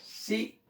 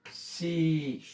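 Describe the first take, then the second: First: सी with a short, cut-off "i"; short vowel. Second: सी with the "ee" held long; long vowel. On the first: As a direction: say "सी" briefly, like "si". ("सी" छोटी इ के साथ) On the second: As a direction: stretch out "सी". ("सी" लंबी ई खींचकर) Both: Shown as a demonstration. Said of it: "बड़ी मात्रा".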